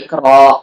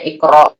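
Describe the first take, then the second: First: The final vowel ends openly without a stop. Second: The final sound is pressed into a stop. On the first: The speaker calls it wrong. "bukan Iqra" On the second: The speaker calls it right. "dibacanya Iqra ... Jadi agak ditekan gitu"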